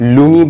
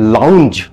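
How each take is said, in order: First: Said 'loon-gee', with an added 'ee' ending. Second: Said 'lownj', ending on the j sound. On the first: The speaker calls it wrong. "লুঙ্গি বা লাউঞ্জি পড়ছেন না তো?" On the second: The speaker calls it right. "যদি লাউঞ্জ উচ্চারণ করেন, দেন congratulations"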